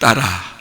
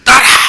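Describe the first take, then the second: First: It is said softly and gently. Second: It is said forcefully and harshly.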